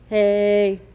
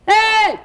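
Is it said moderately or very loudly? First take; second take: moderately; very loudly. First: It is said at moderate loudness. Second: It is shouted very loudly.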